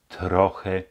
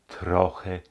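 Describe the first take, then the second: The two takes are said the same way.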